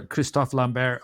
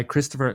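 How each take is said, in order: First: Christophe Lambert said the French way, no final r sound; French name. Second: Said in the usual way. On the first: Shown as a demonstration.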